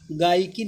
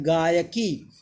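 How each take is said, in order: First: गायकी squeezed to gaai-kee; wrong pronunciation. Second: गायकी said gaa-ya-kee, lower; correct pronunciation. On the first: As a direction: drop the "ya" from गायकी. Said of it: "गायकी नहीं होता है". (गलत उच्चारण, गायकी को "गाइकी" बोलें) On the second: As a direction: sound the "ya" inside गायकी. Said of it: "गायकी सही है". (सही उच्चारण, गायकी में पूरा "य") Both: Shown as a demonstration.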